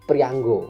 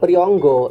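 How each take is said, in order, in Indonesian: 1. Suku kata kedua punya vokal a. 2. Suku kata kedua punya vokal o. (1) "Sebenarnya tadi bacanya harus prianggo" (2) "Kalau dibaca priyonggo ini menjadi wong lanang dhewean"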